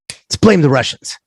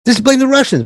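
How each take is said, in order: First: First take, sly plotting tone; mock bankers' scheme. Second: Much higher, insistent repeat of the idea; mock bankers' scheme, pushed higher. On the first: Imagined banker pitching a scapegoat, sly plotting. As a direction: float the idea like a schemer. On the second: Imagined banker insisting on blaming Russians, high and mocking. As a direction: push it as if it's obvious.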